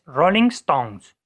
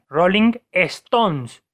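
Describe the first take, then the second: First: Stones starts directly with the s sound. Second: An extra e sound comes before Stones. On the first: The speaker calls it right. "es Rolling Stones" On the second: The speaker calls it wrong. "dicen Rolling Stones, cuando en realidad no hay ninguna E delante de Stones"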